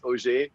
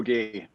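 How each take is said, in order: First: The name is pronounced a non-German way. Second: The name is pronounced the German way. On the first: The speaker calls it right. "but it's Auger" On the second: The speaker calls it wrong. "not Auger. I appreciate the, the German pronunciation"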